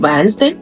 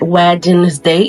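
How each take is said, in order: First: The middle D sound is left out. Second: The middle D sound is clearly pronounced. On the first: The speaker calls it right. "é o Wednesday" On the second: The speaker calls it wrong. "esse D não é Wednesday"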